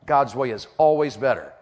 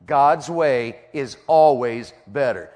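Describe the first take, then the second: First: Said in the usual way. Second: Word by word, drawn out; slow emphatic repetition. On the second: Real, not acted. Preacher drilling the truth into the congregation, slow and emphatic. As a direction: stretch out "God's way is always better" very slowly. Same line slowed for emphasis.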